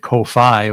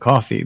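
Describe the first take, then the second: First: It sounds different from the drink coffee. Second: It sounds exactly like the drink coffee. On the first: "people pronounce it ko-fi" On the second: "I always figured it was coffee because they talk about buy me a coffee"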